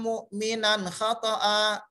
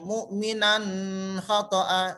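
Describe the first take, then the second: First: The n sound is short and clear. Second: The n sound is held long and nasal. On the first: The speaker calls it right. "Cukup dengan satu ketuk dan tanwin atau nunnya jelas untuk dibaca" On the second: The speaker calls it wrong. "Tidak boleh mu'minan khata'a. Salah"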